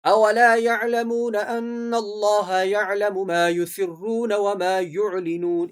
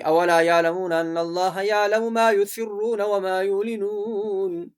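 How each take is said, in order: First: Slow chant, clear throaty ain in یعلمون; correct ain recitation. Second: Slow recital with یعلمون said as plain "yaalamoon"; wrong, ain left out. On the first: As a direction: sound the ain fully in یعلمون and یعلنون. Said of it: "اس طرح پڑھنا ہے". (یعلمون میں عین حلق سے صاف ادا کرنا) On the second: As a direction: glide over the ain in یعلمون and یعلنون. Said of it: "یہ غلط ہے". (یعلمون کو عین کے بغیر غلط پڑھنا) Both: Shown as a demonstration.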